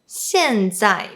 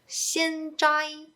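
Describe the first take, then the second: First: The first syllable falls in pitch. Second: The first syllable stays high and level. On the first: The speaker calls it right. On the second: The speaker calls it wrong.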